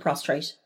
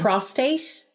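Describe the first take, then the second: First: There is an extra r sound after the t. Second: There is no r sound after the t. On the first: The speaker calls it wrong. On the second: The speaker calls it right.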